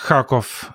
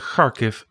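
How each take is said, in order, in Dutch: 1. De naam eindigt op een 'kov' klank. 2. De naam eindigt op een 'kiv' klank. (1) "En dan was het altijd Kharkov en Kiev" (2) "je gaat het net iets anders uitspreken"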